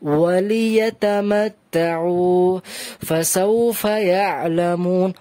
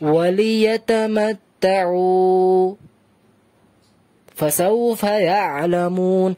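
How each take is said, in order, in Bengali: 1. এক সেকেন্ডের থামা, নিঃশ্বাস নিয়ে। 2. এক সেকেন্ডের অনেক বেশি থামা। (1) "এক সেকেন্ডের জন্যই থামলাম, বাট নিঃশ্বাস ছাড়লাম" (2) "যদি কেউ বেশি থেমে যায় তাহলে বলে এইভাবে"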